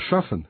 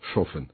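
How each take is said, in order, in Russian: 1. Первый гласный — открытый звук 'ah'. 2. Первый гласный — огубленный звук 'oh'. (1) "Вместо «шафен»" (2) "ударное А почти во всех случаях заменяется на О"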